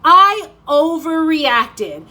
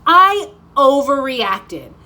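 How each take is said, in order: First: Higher, louder, very slow drawn-out relief; a hint of a relieved little girl; little girl's relief, higher. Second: Louder, slow, drawn-out relieved sigh of words; a hint of a relieved little girl; little girl's relief. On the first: Girl after ear piercing, slow relieved repeat. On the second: Girl after ear piercing, slow relieved realization. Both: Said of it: "and she's like".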